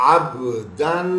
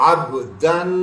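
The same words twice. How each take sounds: The two takes are said the same way.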